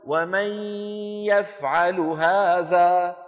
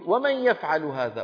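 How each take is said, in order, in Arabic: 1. تُنطق النون بوضوح قبل الياء. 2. تندمج النون مباشرة في صوت الياء. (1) "لا يقول" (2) "من الميم إلى الياء على طول"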